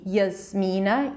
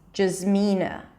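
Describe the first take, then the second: First: The name begins with a y sound. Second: The name begins with a j sound. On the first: "y sound as in yes" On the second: "or a j sound, jaz"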